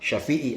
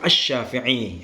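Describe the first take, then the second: First: The name begins directly with 'sha', no article. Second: The name begins with an 'ash' sound before 'sha'. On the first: This is the everyday lay form of the name. The speaker calls it wrong. "kalau tidak pakai al itu ya ad-dakhil itu. Salah dalam pengucapan" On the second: This is the scholarly form of the name. The speaker calls it right. "yang lebih tepatnya, pakai al"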